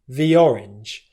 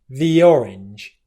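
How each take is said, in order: No difference in how they are said.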